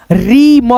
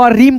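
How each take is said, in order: First: रीम split as री, then म; separated री and म for a beginner reader; sounded out. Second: Said in the usual way. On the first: Shown as a demonstration. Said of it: "अब इसको हम क्या पढ़ेंगे?". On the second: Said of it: "पढ़ेंगे".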